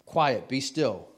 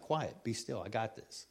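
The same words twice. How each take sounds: First: Loud, slow command; commanding, with weighty slowness; firm rebuke. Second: Soft, unhurried answer; quietly in control, acted; calm reassurance. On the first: Acted. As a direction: order the storm to stop, drawn out. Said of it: "rebuked the wind and the waves". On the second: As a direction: settle a panicking friend quietly. Calm answer to the frantic protest.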